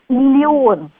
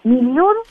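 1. Слово произносится в полной нейтральной форме. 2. Слово произносится в сокращённой разговорной форме. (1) "нейтральный вариант написания и произношения" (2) "либо разговорное произношение, либо, может быть, устаревшее"

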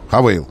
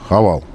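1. Во втором слоге гласный 'ay'. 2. Во втором слоге обычный гласный 'a'. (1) "Он, конечно, Хавейл" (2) "что он Хавал или Хавейл"

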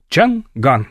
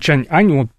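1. В середине твёрдый звук г. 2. В середине мягкий звук без г.

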